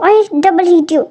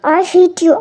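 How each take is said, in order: First: Slow sulky stress. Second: Said in the usual way. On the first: Acted. Wife sulks at husband.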